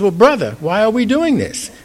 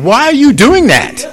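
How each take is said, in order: First: High-pitched but unforced curious question; friendly brotherly question. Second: Loud, high-pitched incredulous question; judgmental challenge. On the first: Saint Francis to Rumi while spinning along, friendly puzzled question. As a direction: ask as a companion, no judgment. Joins in, then asks gently. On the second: Preacher mimicking what Saint Francis didn't say, loud incredulous challenge. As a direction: act out a judge calling someone out. Acted judging question he rejects. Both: Acted.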